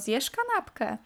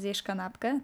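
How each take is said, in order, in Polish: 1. Pytanie ma regionalną intonację kurpiowską. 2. Pytanie ma standardową polską intonację. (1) "to jest taki typowo kurpiowski akcent" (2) "nie mówię"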